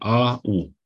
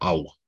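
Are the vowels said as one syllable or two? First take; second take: two; one. First: The two vowels are said as separate syllables. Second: The two vowels are glided into one syllable. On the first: The vowels do not form a diphthong here. The speaker calls it right. "Avem A-U" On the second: The vowels form a diphthong. The speaker calls it wrong. "Nu pronunțăm au, cum ar trebui să pronunțăm diftongul"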